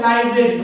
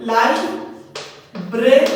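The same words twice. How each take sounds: First: Said in the usual way. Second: "library" in three slow beats, লাই, ব্রে, রি; long pauses between each syllable of "library"; split into syllables. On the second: Shown as a demonstration. Teacher showing a three-syllable word, "library" split slowly. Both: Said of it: "এগুলো হচ্ছে ট্রাইসিলেবলিক word".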